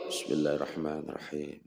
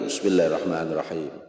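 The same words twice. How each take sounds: First: It is recited quietly. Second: It is recited loudly.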